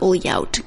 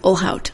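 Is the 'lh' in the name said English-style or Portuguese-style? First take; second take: Portuguese-style; English-style. First: The 'lh' sounds like a Portuguese 'ly' sound. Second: The 'lh' is a plain English 'l' sound. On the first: The speaker calls it wrong. "because my brain is trying to learn Portuguese" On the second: The speaker calls it right. "It's Olhout"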